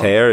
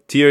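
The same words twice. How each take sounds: First: The vowel sounds like the one in 'air'. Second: The vowel sounds like the one in 'ear'. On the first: It is the verb meaning to rip apart. "Tear je sloveso trhat" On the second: It is the noun meaning a drop from the eye. "Tear je podstatné jméno slza"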